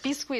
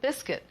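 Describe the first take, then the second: First: The word is said with a French pronunciation. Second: The word is said with an English pronunciation. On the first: "is the way the French pronounce it" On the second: "A lot of people call it"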